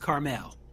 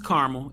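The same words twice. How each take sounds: First: Carmel is pronounced the West Coast way. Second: Carmel is pronounced the East Coast way. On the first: "If we're in the West Coast, it's Carmel" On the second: "So East Coast is Carmel"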